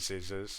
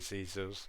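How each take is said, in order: First: It is said in a standard English accent. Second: It is said in a Filipino accent, like Caesar's. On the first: "they don't say scissors" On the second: "in Tagalog, ... they say scissors"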